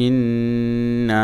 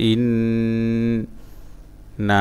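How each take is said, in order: First: Joined recitation. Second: Separated syllables with long pauses. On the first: Teacher putting the word back together, joined chant. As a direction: link it all, holding the long sounds. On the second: Teacher breaking a word down for learners, syllable by syllable. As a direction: sound out one syllable at a time. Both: Shown as a demonstration.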